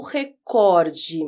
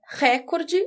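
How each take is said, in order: First: Recorde stressed on the middle COR; stress on second syllable. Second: Recorde stressed on the opening RÉ, open é; stress on first syllable. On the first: Teacher posing the two options to viewers, stress on second syllable of recorde. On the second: Teacher posing the two options to viewers, stress on first syllable of recorde. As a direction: say recorde as RÉ-cor-de. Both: Shown as a demonstration. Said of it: "o correto é recorde ou recorde".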